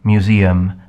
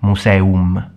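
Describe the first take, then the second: First: It is said with an English pronunciation. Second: It is said with a Latin pronunciation. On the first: "as in English you say museum" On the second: "in Latin the pronunciation would be museum"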